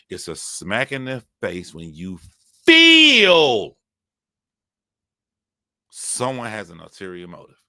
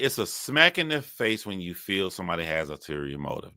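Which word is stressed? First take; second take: feel; none. First: The word feel is stressed. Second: Every word gets the same even stress.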